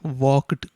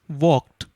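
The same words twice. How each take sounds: First: The word ends with a d sound. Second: The word ends with a t sound. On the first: The speaker calls it wrong. "you cannot pronounce this as walked" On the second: The speaker calls it right. "You have to pronounce it as walked"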